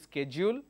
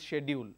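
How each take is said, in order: First: The word is said with an American pronunciation. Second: The word is said with a British pronunciation. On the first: "complete American pronunciation" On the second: "complete British pronunciation"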